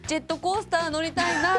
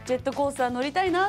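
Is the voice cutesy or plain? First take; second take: cutesy; plain. First: It is said in an exaggerated cutesy voice. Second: It is said in a plain normal voice.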